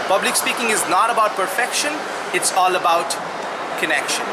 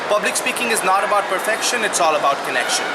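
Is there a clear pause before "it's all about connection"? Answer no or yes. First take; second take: yes; no. First: A clear pause comes before the last phrase. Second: It runs on without a clear pause. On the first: The speaker calls it right. "it's not about perfection, pause, it's all about connection" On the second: The speaker calls it wrong. "The first manner"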